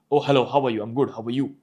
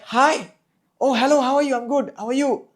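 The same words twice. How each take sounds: First: Low-pitched everyday greeting; lower pitch. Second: Very high, louder greeting; high pitch. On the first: Coach explaining pitch further, low-pitched. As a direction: keep the hello down low. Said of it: "The only difference was pitch". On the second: Coach explaining pitch further, high-pitched. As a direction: pitch the hello way up. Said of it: "So pitch is like". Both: Shown as a demonstration.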